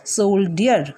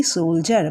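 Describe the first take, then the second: First: সোলডিয়ার read as written, with a D sound; spelling pronunciation. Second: সোলজার with a J sound for the DI; two syllables in সোলজার, J in the middle; correct pronunciation. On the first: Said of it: "কিন্তু এটা উচ্চারণ হবে কি". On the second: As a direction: say সোলজার as "sol-jar". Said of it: "এটা উচ্চারণ হবে কি". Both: Shown as a demonstration.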